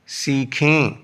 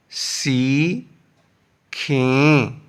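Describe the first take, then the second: First: Said in the usual way. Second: "سی، کھیں" as two isolated syllables; long pause between "سی" and "کھیں". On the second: Shown as a demonstration. Teacher splits, then joins word.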